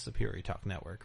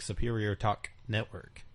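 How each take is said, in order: First: Superior Talk Network run together, softer, the K of Talk skipped. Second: Every word of Superior Talk Network sounded out; full enunciation. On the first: Co-host showing how people really say it, consonants skipped. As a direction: slur Talk into Network without a clear K. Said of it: "skip over the K". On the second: Co-host showing a host the full form, enunciated. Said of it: "Nobody enunciates words when you say". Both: Shown as a demonstration.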